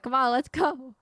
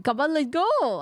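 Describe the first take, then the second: First: Said in the usual way. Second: Louder, higher, badly faked French accent; attempted French accent. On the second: Game player voicing a French character, badly faked French accent. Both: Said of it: "Oh wait, she's French".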